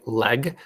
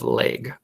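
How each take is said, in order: First: LEG with an open "eh" vowel; careful short-e "leg", no glide; short e sound. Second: LEG as "laig", Minnesota style; Minnesota accent. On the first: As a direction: say "leg" with the e of "bed". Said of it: "Sounds weird if you try to say it that way". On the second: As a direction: Minnesotan long-a vowel in "leg". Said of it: "that's our accent". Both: Shown as a demonstration.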